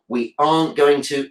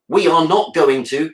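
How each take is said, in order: First: 'Are not' is contracted to 'aren't'. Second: 'We are not' is said as three full words. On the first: The speaker calls it right. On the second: The speaker calls it wrong.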